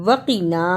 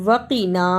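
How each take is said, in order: The two takes are said the same way.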